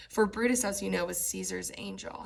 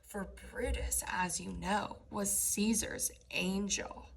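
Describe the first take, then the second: First: Said in the usual way. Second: Mock-sincere sarcasm; facetious. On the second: Shown as a demonstration. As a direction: let the irony drip off angel. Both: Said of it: "he's being facetious".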